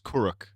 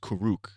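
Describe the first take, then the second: First: The name is said with an 'uh' vowel. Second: The name is said without an 'uh' vowel. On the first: This is how the original show said it. The speaker calls it right. "in the original show it was Kuruk, like a like a uh like an uh sound" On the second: This is how the name is said now. The speaker calls it wrong. "but now it's Kuruk. Drives me nuts"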